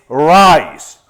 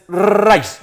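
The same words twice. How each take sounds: First: "rice" with a smooth English R, no trill. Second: "rice" with a Spanish trilled R; wrong rolled R. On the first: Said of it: "En inglés es rice". ("rice" con erre inglesa, sin vibrar) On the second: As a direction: roll the R at the start of "rice" hard. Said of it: "en inglés no es rice". ("rice" con erre española vibrada) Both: Shown as a demonstration.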